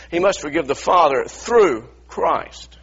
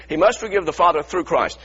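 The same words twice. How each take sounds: First: Slow, weighty, with stress on "through"; emphatic slow line. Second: Said in the usual way. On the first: Shown as a demonstration. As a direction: lean hard on "through", word by word. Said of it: "I want you to see this". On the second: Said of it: "let me show you the scripture".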